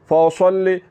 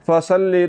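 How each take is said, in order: First: The s sound is thick, with the tongue raised. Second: The s sound is thin, with the tongue lowered. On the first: The speaker calls it right. "स्वाद मोटा करके पढ़ा जाएगा" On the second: The speaker calls it wrong. "आवाज़ को बारीक नहीं करना"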